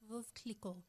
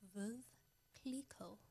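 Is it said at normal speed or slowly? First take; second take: normal speed; slowly. First: It is said at normal speed. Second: It is said more slowly.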